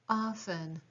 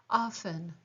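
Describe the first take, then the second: No difference in how they are said.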